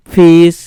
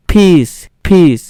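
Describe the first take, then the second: First: "ফিস" begun with an English f sound; loud, clear "ফিস" with f rather than ph; half ফ. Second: Slow "ফিস" with a full aspirated ph; "ফিস" begun with a complete puffed ph. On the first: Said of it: "অর্ধেক ফ এর উচ্চারণ হচ্ছে". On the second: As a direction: say "ফিস" with Bengali ফ, not English f. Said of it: "ফটা কিন্তু সম্পূর্ণ উচ্চারণ হচ্ছে". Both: Shown as a demonstration.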